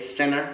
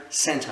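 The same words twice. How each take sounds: First: "Center" in American English, no T; American-style "Center", like "senner"; American accent. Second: "center" in British English, T sounded; British-style "center", like "senta"; British accent. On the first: English teacher recapping the two accents, American pronunciation. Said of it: "en américain ça va devenir center". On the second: English teacher recapping the two accents, British pronunciation. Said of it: "En anglais britannique ça va devenir center". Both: Shown as a demonstration.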